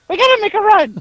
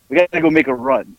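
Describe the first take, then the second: First: It is said in an imitation of Howard's voice. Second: It is said in the speaker's normal voice.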